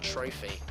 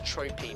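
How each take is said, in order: First: The middle consonant is an f sound. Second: The middle consonant is a plain p sound. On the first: The speaker calls it wrong. "not Trophy" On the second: The speaker calls it right. "it turns out it's Tropy"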